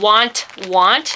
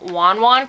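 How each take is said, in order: First: Each word ends with a clear t sound. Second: Each word ends without any t sound. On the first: This is how the name is spelled. "it's spelled want, want" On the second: This is how the name is actually said. "it's actually pronounced, because she's Taiwanese, she pronounced them wan wan"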